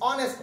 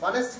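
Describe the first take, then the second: First: The word begins directly with a vowel. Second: The word begins with an h sound. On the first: The speaker calls it right. "অনেস্ট পড়ছি" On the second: The speaker calls it wrong. "হনেস্ট কেউ কি পড়ি? পড়ি না"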